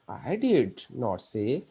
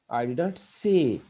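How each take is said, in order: First: The stress falls on the word did. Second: The stress falls on the word say. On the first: The fact is strongly and angrily denied. "I did, did the meaning" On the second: It was implied rather than said outright. "इसमें से को वो जो है deny कर रहा है"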